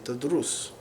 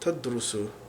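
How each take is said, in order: First: It ends without a final vowel. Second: It ends with a final -u vowel.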